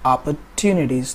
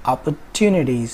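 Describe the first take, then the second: The two takes are said the same way.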